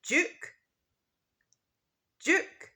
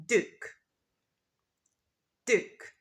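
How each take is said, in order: First: Duke with a J sound, like jook; British Duke, J sound; British pronunciation. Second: Duke with a clear D, dook; American Duke, plain D; American pronunciation. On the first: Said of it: "in British English, we say". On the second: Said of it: "in American English, we say". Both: Shown as a demonstration.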